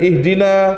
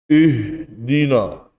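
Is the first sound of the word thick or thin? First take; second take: thin; thick. First: The opening hamzah is said thin and light. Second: The opening hamzah is said thick and heavy. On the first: The speaker calls it right. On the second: The speaker calls it wrong.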